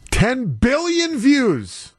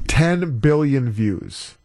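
First: Slow, high-pitched exclamation; amazed exclamation. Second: TEN drawn out slowly, evenly pitched; slow emphasis. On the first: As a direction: hit BILLION high and stretch it out in amazement. Repeats the record figure, now exclaiming. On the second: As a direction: say "Ten billion views" slowly and deliberately. Repeats the record figure for emphasis. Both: Real, not acted.

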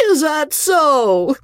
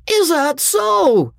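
First: Slow, higher drawl rising in surprise; surprised drawl. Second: Put-on slow, much higher amused drunk; amused drawl. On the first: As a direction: let the drawl lift in wonder. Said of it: "with an element of surprise in it now". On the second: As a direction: drawl it with mock surprise. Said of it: "drawled the amused voice". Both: A narrator's reading.

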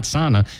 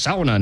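First: "sauna" with AH, as SAH-na; wrong pronunciation. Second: "sauna" with OW, as SOW-na; correct pronunciation. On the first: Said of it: "it's sauna, not sauna". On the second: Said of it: "not sauna". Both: Shown as a demonstration.

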